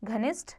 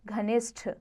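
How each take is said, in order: First: घनिष्ठ ending in plain t; wrong aspiration. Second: घनिष्ठ ending in aspirated th; correct aspiration. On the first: Teacher shows the error, घनिष्ठ without final aspiration. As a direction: say घनिष्ठ as ghanisht. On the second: Teacher corrects it, घनिष्ठ with aspirated ending. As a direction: say घनिष्ठ as ghanishth. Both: Shown as a demonstration. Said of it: "अल्प प्राण, महाप्राण संबंधी".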